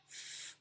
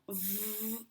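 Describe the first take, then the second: First: "v" said with no voice, a pure breathy f hiss; a voiceless "v" that sounds like "f"; unvoiced f sound. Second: "v" said as a buzzing voiced consonant, vocal cords vibrating; a quiet, drawn-out voiced "v" for the children; voiced v sound. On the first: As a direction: blow air through the lips and teeth without any buzz. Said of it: "Quando ela não ouvir". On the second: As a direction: hold a soft buzzing "v" so the throat vibrates. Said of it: "quando ela ouvir a vibração". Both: Shown as a demonstration.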